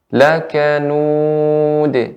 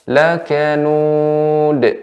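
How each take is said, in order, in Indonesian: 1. D akhir dilepas dengan pantulan. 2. D akhir dipotong dengan hentian glotal. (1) "Yang pertama" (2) "Bukan yang kedua"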